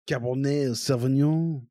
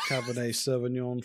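First: The name is said with a more French-sounding pronunciation. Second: The name is said with a non-French, anglicized pronunciation. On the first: The speaker calls it right. "That's better" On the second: The speaker calls it wrong. "so many French people just killed themselves right now"

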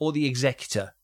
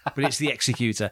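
First: The name is said the American way. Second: The name is said the non-American way. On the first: The speaker calls it wrong. "as people in America like to say" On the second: The speaker calls it right.

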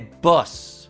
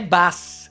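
First: The vowel is a short central uh sound. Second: The vowel sounds like an open Italian a. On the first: The speaker calls it right. "è boss" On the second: The speaker calls it wrong. "Non è né bus"

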